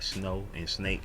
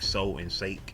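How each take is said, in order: First: The words begin with a clear sn sound. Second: The words begin with s, dropping n. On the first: The speaker calls it right. "like snow and snake" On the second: The speaker calls it wrong. "I couldn't say the sn sn sn at first, so I was saying so and sake"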